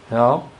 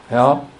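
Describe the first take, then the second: The two takes are said the same way.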